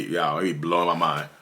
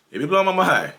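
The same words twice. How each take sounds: First: Said in the usual way. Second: Higher and louder, leaning on blowing; emphatic repeat. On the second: Real, not acted. The vlogger repeats his point to viewers, higher and louder. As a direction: punch it the second time, blowing loudest.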